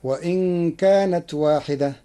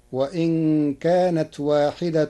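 First: واحدة ending waahidah, no case vowel; واحدة in pausal form. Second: واحدة said waahidatun, ending in -tun; واحدة in nominative. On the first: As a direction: stop on واحدة with a plain -ah ending. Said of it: "قرأ ورش كلمة واحدة". (واحدة بالوقف على الهاء) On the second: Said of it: "بالرفع". (واحدة بالرفع والتنوين) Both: Shown as a demonstration.

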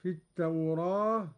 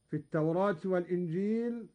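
First: التوراة with the a leaned slightly to e; slightly tilt the vowel of التوراة; taqlil on التوراة. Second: التوراة said quickly with open a; reading التوراة. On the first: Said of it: "هكذا". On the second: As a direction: run through التوراة with a plain open a. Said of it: "قرأ قالون بالفتح والتقليل". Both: Shown as a demonstration.

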